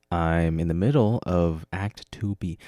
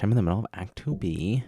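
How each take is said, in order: First: Said in the usual way. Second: Ends on a rise instead of a fall; odd rising tune. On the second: Shown as a demonstration. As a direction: end it up like a question. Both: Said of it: "I don't know why I said it like that".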